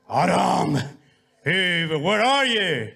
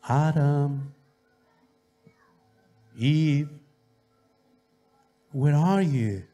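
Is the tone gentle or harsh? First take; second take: harsh; gentle. First: It is called in a harsh, angry tone. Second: It is called in a gentle, loving tone.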